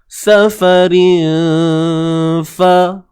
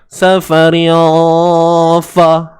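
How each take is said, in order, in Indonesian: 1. N tersembunyi dalam dengung sengau yang ringan. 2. N diucapkan penuh dengan bunyi yang terangkat. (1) "Senang kita nak nak sebut semula fa tu nanti" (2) "Bunyi terangkat tu"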